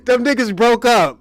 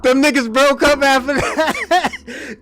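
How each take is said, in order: First: Said in the usual way. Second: Slow, laughing through the words; amused, drawn-out delivery. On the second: Real, not acted. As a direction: chuckle it out slowly. Laughing retelling of friends' breakup.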